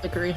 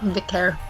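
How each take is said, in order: First: The name is said with three syllables. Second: The name is said with two syllables. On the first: "we pronounce it Vickery" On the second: "That's how I pronounced it when I first saw it"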